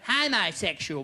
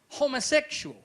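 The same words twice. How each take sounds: First: The word is said in a broad Australian way. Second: The word is said in a careful, standard way. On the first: "Most Australians would say homosexual" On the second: "you pronounced it qu- correctly. It is homosexual"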